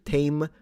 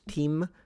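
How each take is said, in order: First: The vowel sounds like the ay in say. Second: The vowel sounds like the ee in see. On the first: This is the middle historical pronunciation. "which turned into tame" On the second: This is the earliest historical pronunciation. "initially the pronunciation was team"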